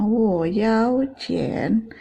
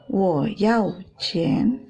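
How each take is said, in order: First: Very slow "Wo yao qian", "yao" gliding upward; pembedaan nada. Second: Very slow "Wo yao qian", words separated; short "yao", long "qian"; pembedaan nada. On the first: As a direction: join and stretch "Wo yao qian". ("yao" panjang dengan nada naik) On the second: ("Wo yao qian" pelan, "yao" pendek) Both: Shown as a demonstration. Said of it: "ini bedanya arti ya".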